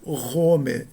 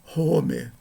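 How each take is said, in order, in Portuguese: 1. A palavra começa com um R nítido. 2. A palavra começa com um som de H suave, como um sopro. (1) "é um Ro. Som de R" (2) "não Rome. Não é uma mera aspiração"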